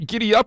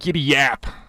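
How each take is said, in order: First: The second word starts with a plain vowel. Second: The second word starts with a y sound. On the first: The speaker calls it right. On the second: The speaker calls it wrong. "or is it giddy yap?"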